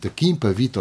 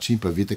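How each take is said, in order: First: The name begins with a hard k sound. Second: The name begins with a soft sh sound. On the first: "eu vou dizer Kimpavita" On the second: "aqueles que entendem que se deve dizer Chimpavita"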